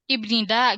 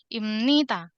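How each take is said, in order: First: A b sound comes before nida. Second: An m sound comes before nida. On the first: The speaker calls it wrong. "Padahal harusnya nggak gitu pelafalannya" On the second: The speaker calls it right.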